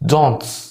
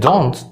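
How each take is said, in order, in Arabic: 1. التاء اللي في الآخر بعدها س قوية. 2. التاء اللي في الآخر عادية ومفيهاش صفير. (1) "بيبالغوا قوي في السين اللي في الاخر" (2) "كلمة زي don't"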